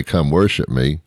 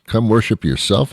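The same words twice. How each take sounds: First: "worship" leaned on as the wrong version; what Buddha didn't say. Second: Higher, "worship" stressed and rising; what Buddha said. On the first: Buddha's wrong words, rising on "worship". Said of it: "Buddha didn't say". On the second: Buddha's true words, pitched higher on "worship". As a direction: lift "worship" toward "yourself". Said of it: "is what Buddha said". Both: Retold or imitated.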